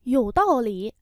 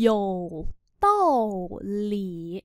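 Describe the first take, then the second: First: Said in the usual way. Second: Three separated, drawn-out syllables; slow model reading. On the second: Shown as a demonstration. Teacher modelling "makes sense" for learners, slowly and separately. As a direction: sound out each syllable slowly.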